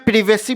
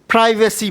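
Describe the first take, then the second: First: It has a British short first vowel. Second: It has an American 'eye' first vowel.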